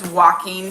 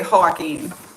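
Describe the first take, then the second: First: The name is said with an English pronunciation. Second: The name is said with a Spanish pronunciation. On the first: "I know his name is Joaquin Phoenix" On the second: "how we say that name in Spanish"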